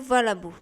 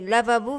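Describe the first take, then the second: First: The word begins with v, then l. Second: The word begins with l, then v.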